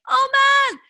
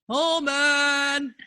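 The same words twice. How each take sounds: First: It is yelled at a high pitch. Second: It is yelled at a low pitch.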